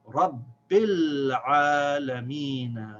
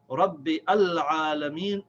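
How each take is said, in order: First: 'Rabbi' runs straight into 'l' with no vowel. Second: A separate vowel is sounded before 'al'. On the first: The speaker calls it right. "It is silent. We don't pronounce it" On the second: The speaker calls it wrong. "it's incorrect"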